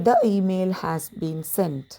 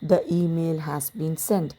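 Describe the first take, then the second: First: 'The' is said with a short 'thuh' sound. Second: 'The' is said with a short 'thuh' sound.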